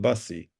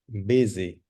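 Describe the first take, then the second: First: The first vowel sounds like the vowel in bus. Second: The first vowel sounds like the vowel in bit. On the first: The speaker calls it wrong. "the pronunciation is not bussy" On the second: The speaker calls it right. "pronunciation is busy"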